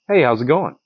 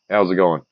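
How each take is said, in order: First: It sounds warm and friendly. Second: It sounds curt and frustrated.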